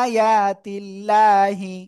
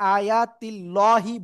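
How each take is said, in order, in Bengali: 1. L ধ্বনিটি পাতলা ও হালকা। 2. L ধ্বনিটি ভারী ও পূর্ণ। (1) "চিকুন করে পড়বো" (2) "এটা কিন্তু মারাত্মক ধরনের ভুল"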